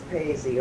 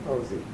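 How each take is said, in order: First: The first vowel sounds like 'ay'. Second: The first vowel sounds like 'oh'. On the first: The speaker calls it right. "no, it's Paisy" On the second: The speaker calls it wrong. "some people will call me Posey"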